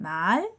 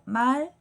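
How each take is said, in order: First: The pitch rises from low to high. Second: The pitch stays level from start to end. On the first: "낮은 소리에서 높은 소리로 올라가는 거예요" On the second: "그냥 평평하게 말 이렇게 처음과 끝이 같은 높이로"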